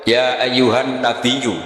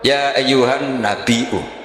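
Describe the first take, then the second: First: The word nabi has a doubled y sound. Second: The word nabi has a glottal stop. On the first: "Imam Asim Fif Hamzah menjadi ya" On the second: "ini mahmusullam sehingga dia baca tetap"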